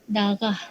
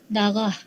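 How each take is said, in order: No difference in how they are said.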